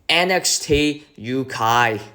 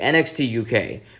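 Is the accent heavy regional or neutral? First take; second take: heavy regional; neutral. First: It is said in a heavy regional accent. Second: It is said in a neutral accent. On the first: "that's my best impression I could give" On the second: "normally on T V uh, advertisements they say"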